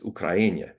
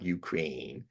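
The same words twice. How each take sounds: First: The name is pronounced the native way. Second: The name is pronounced the English way. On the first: The speaker calls it right. "It's Ukraine" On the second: The speaker calls it wrong. "not Ukraine"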